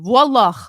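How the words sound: It is said like a Lebanese person.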